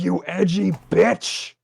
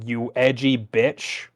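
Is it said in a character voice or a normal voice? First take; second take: character; normal. First: It is said in the character's put-on voice. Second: It is said without the character's put-on voice. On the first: The speaker calls it right. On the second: The speaker calls it wrong.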